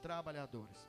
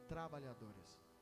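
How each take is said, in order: First: It is said louder and stronger. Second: It is said at normal volume.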